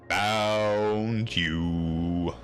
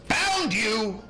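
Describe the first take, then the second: First: It is said very slowly, drawn out. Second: It is said at a normal quick pace.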